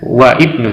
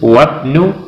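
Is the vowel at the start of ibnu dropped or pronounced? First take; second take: pronounced; dropped. First: The i of ibnu is pronounced separately. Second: The i is dropped and the words join. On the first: The speaker calls it wrong. "bukan wa ibnu" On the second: The speaker calls it right. "tetapi langsung wabnu"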